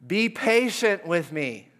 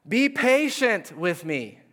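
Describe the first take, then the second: First: Slow, lightly raised plea; a touch of pleading; mild begging. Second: Slow, raised pleading plea; begging. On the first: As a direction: fellow servant on his knees pleading with the servant. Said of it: "fell to his knees and begged him". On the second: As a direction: beg the king for more time. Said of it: "he begged". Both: Acted.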